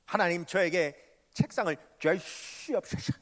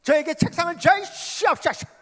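First: Said in the usual way. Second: High, loud pleading cry; crying out to God for a desk; fervent prayer. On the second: Shown as a demonstration. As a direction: beg God with everything you have. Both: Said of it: "그렇게 기도하는데".

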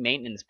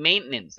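First: Maintenance said as MAIN-nance; American-style maintenance, middle syllable swallowed; correct pronunciation. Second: Maintenance spelt out as main-TEN-nance; wrong pronunciation. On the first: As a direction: say maintenance in two beats, main then nance. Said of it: "ออกเสียง maintenance นะ". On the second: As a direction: give maintenance a full middle syllable, ten. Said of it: "ไม่ได้ maintenance". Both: Shown as a demonstration.

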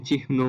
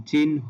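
First: "চিহ্ন" as chih-no; ভুল উচ্চারণ. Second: "চিহ্ন" as chin-ho; সঠিক উচ্চারণ. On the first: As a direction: put the h before n in "চিহ্ন". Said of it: "এই উচ্চারণগুলো ভুল". ("চিহ্ন"-তে আগে হ, পরে ন) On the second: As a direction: put n before h in "চিহ্ন". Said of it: "নটা আগে আসবে". ("চিহ্ন"-তে আগে ন, পরে হ) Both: Shown as a demonstration.

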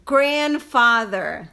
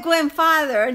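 First: GRANDFATHER lento, "GRAN-fáder", con gr clara; pronunciación correcta. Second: GRANDFATHER dicho "güenfáder", sin la r inicial; pronunciación errónea imitada. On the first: Shown as a demonstration. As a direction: separa despacio GRAN y FATHER en GRANDFATHER. (GRANDFATHER pausado, marcando la r de "gran") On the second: Retold or imitated. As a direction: imita el error: "GÜEN-fader" por GRANDFATHER. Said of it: "no es grandfather ni father de father". (GRANDFATHER mal dicho, con "güen")

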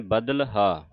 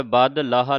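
First: ਬਦਲਹਾ with l bound to the d, then haa; correct pronunciation. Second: ਬਦ ਲਾਹਾ broken after bad, l joined to haa; wrong pronunciation. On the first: Teacher showing where the l belongs, correct pronunciation. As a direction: keep the l of ਬਦਲਹਾ in badal. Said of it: "ਲੱਲਾ ਦੱਦੇ ਦੇ ਨਾਲ ਉਚਾਰਨ ਕਰਨਾ". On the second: Teacher warning against joining l to haa, wrong pronunciation. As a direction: split it ਬਦ, then long ਲਾਹਾ. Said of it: "ਲੱਲਾ ਹਾਹੇ ਨਾਲ ਨਹੀਂ ਲਾਉਣਾ". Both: Shown as a demonstration.

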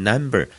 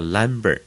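First: Number starting with a nasal N; tongue on the palate for the N of number; clear N. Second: Number misread as lumber, with an L. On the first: Teacher contrasting N with L, number with clear N. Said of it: "呢了不分的人". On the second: Teacher imitating those who mix N and L, lumber. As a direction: say lumber, L in place of N. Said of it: "他就读个lumber". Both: Shown as a demonstration.

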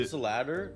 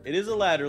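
First: Rising tune on "ladder"; questioning. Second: Firm "is", falling at "ladder"; confirming. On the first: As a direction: ask unsurely, lifting "ladder". Question before confirming it. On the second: Confirms own question. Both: Real, not acted.

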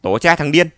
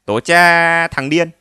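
First: Loud furious cursing; angry curse. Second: Loud, slow mocking curse; mocking curse back. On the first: Acted. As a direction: yell the curse down at him. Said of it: "chửi xuống". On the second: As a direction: throw the same curse back slowly. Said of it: "chửi trả".

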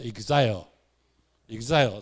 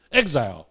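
First: Exile said the way Japanese speakers pronounce it; Japanese-style pronunciation. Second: Exile said with the standard American pronunciation. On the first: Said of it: "日本人的发音读作". (用日本人的发音念 exile) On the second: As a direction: demonstrate the proper American exile. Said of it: "正式的美国发音是". (用正式的美国发音念 exile) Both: Shown as a demonstration.

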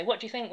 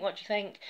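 First: Higher, insistent what do you think; pushy question to husband. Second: Slightly higher, pressing repeat of think; repeated pushy question. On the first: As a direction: push the question at him, eager for praise. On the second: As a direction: ask again, nudging him to answer. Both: Retold or imitated. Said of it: "I will force my nails into his face and say".

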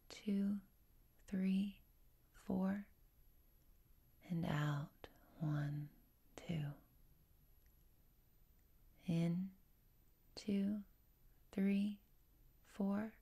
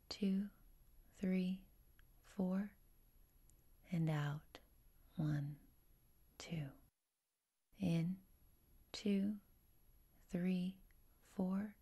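The two takes are said the same way.

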